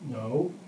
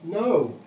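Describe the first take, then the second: First: It sounds insincere and unconvincing. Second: It sounds more sincere and convincing.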